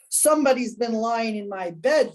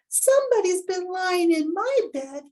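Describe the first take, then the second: First: It is said in a great big voice. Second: It is said in a wee little voice. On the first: "in his great big voice" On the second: "in his little wee little voice"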